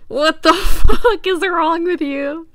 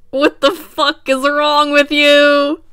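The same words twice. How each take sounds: First: Loud yell breaking into laughter; laughing shout. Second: Slow, loud, high outburst; loud shout. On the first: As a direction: shout it while cracking up. Repeating the shirt text. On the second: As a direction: yell it in disbelief. Reacting to shirt text. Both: Real, not acted.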